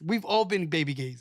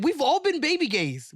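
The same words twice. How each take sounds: First: Low, dropping restatement of the admission; settled afterthought. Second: High, emphatic admission that sweeps everyone in; insistent concession. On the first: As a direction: repeat it lower, as a settled fact. Repeats it as lower afterthought. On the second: Insists, then repeats as concession. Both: Real, not acted.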